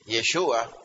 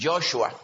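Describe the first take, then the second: First: Yeshua said the Hebrew way, yeh-SHOO-ah, stress on the middle syllable; Hebrew name Yeshua. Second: Joshua said in English, JOSH-oo-ah, stress on the first syllable, drawn out slowly; English name Joshua. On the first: Preacher naming Jesus in Hebrew for the church: Yeshua, yeh-SHOO-ah. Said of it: "en hebreo". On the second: Preacher comparing names for the congregation: Joshua in slow English. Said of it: "o sea, Jesús". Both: Shown as a demonstration.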